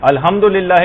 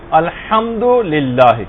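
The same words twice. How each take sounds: First: الحمدللہ غلط تلفظ; wrong Alhamdulillah. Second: الحمدللہ very slow with a clear throaty ح; الحمدللہ صاف اور آہستہ; correct Alhamdulillah. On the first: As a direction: say الحمدللہ carelessly with a light h. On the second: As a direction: draw out الحمدللہ, every letter precise. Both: Shown as a demonstration. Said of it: "الحمدللہ نہیں".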